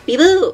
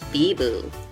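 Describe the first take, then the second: First: It is said in a lively, excited tone. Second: It is said in an absent, distracted tone. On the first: The speaker is thrilled. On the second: The speaker is not really listening. "pretending to listen"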